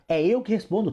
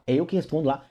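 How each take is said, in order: First: "eu" lifted high and hit hard, meaning me personally; stress on "eu". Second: Said in the usual way. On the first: Shown as a demonstration. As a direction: insist it's you who answers by punching "eu".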